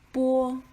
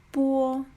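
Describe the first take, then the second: First: It sounds like the Chinese pinyin syllable. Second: The same.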